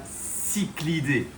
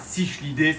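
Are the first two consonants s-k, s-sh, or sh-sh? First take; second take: s-k; s-sh. First: It starts with s, then a k sound. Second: It starts with s, then a sh sound. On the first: The speaker calls it right. "c'est bien cyclidés" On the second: The speaker calls it wrong. "C'est pas cichlidés"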